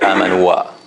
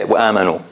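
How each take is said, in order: First: The word ends with an added 'wa' sound. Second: The word ends cleanly on the 'u' vowel. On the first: The speaker calls it wrong. "we don't say amanu wa" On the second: The speaker calls it right. "We say amanu as if there is no alif here"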